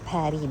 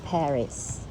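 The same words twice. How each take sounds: First: The final s is silent. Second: The final s is sounded. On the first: The speaker calls it right. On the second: The speaker calls it wrong.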